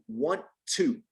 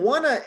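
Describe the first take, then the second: First: The two words are said fully and separately. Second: The words blend into one reduced word. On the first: The speaker calls it right. "It should be want to" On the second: The speaker calls it wrong. "wanna is not correct"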